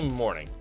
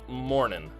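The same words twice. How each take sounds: First: The word ends with a full G sound. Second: The word ends without the G sound. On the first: The speaker calls it wrong. "don't say morning" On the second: The speaker calls it right. "You leave off the G"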